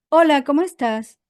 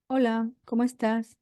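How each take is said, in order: First: Bright, loud upbeat hello; cheerful greeting. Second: Said in the usual way. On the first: Shown as a demonstration. Coach showing a lively greeting, loud and upbeat. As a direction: greet them with lots of energy. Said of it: "Si yo hago así y digo". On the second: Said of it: "Date cuenta de qué diferencia".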